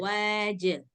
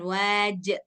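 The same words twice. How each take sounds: First: The word ends on a released j sound. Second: The word ends with an added glottal stop. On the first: The speaker calls it right. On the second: The speaker calls it wrong.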